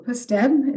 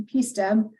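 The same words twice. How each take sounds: First: "pusteb" run together as a word; "pusteb" with a short puh instead of the letter name P; pronounced as one word. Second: "P steb" with the P said as a letter name; slow "P steb", pronouncing the initial P by its name; letter P plus steb. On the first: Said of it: "as some people say". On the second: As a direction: say "P steb" as pee-steb. Acronym given in two pronunciations. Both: Shown as a demonstration.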